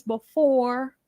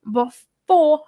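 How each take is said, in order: First: Said in the usual way. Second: BEFORE said loud and drawn out on the last syllable; emphatic BEFORE. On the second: Real, not acted. Host warning the couple to act first, loud emphatic BEFORE. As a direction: punch and stretch the word BEFORE.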